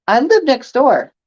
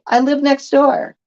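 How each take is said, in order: First: "I live next door" stated firmly with a falling end; "I live next door" as a statement, no question; flat statement. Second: "I live next door" read higher and lifted like a question; "I live next door" with a doubtful, asking lilt. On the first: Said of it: "It's not a question, it's a statement". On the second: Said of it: "why would you put a question mark on there". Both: Shown as a demonstration.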